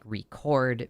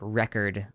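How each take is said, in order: First: The stress falls as in the verb form. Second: The stress falls as in the noun form. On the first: It names an action. "record being the verb" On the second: It names a thing. "record hits the noun"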